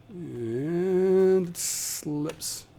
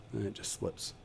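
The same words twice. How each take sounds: First: "And it slips" stretched very slow and high; long slow exaggerated "And it slips"; drawn-out. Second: Said in the usual way. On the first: Shown as a demonstration. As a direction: drag "slips" out in mock dismay.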